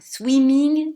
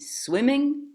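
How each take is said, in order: First: The first vowel is a tense 'ee' sound. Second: The first vowel is a short lax 'ih' sound. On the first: The speaker calls it wrong. "pas swimming" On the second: The speaker calls it right. "mais swimming"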